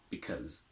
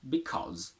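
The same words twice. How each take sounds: First: The word is said in its weak, reduced form. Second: The word is said in its full form.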